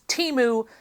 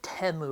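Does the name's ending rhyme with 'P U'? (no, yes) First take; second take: yes; no. First: The name's ending rhymes with 'P U'. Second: The name's ending does not rhyme with 'P U'. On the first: The brand stinks. The speaker calls it right. "It's Temu because they are P U" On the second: This is the brand's own advertised pronunciation. The speaker calls it wrong. "I will never pronounce it Temu or whatever the crap the Super Bowl ad was"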